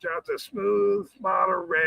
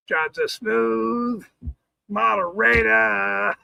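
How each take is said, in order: First: Said in the usual way. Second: Slow drawn-out phrase. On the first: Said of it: "plain take before slow repeat". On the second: Shown as a demonstration. Streamer repeating a chat joke, drawn out slowly. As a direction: stretch each word out slowly. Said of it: "slow deliberate repeat of phrase".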